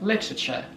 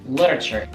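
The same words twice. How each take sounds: First: It is said in a British accent. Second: It is said in a non-British accent.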